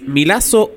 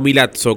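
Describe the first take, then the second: First: The double z sounds like a plain s. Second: The double z sounds like ts, as in pizza.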